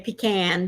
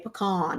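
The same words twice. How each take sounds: First: It is said the way many others say it. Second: It is said the way Texans say it.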